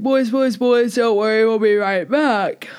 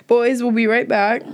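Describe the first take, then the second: First: Words stretched into a yawn. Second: Said in the usual way. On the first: Real, not acted. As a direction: talk through a rising yawn, slowing at the end. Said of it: "I'm yawning". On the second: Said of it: "I'm yawning. This is terrible audio".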